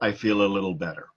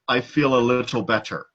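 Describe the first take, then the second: First: The sounds are relaxed, as in everyday speech. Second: Each sound is said carefully, just as spelled. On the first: The speaker calls it right. "They would say" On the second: The speaker calls it wrong. "no one would ever tell you"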